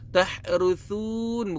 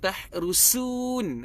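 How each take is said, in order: First: The consonant is a soft th, tongue tip out. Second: The consonant is a hissing s sound. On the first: The speaker calls it right. "sebetulnya adalah tahru tahruthun" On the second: The speaker calls it wrong. "bunyi sin. Berdesir"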